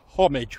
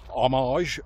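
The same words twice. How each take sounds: First: It is said in the usual British way. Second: It is said in a non-British way. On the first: "which is how we tend to pronounce it in the U K" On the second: "saying homage at the start"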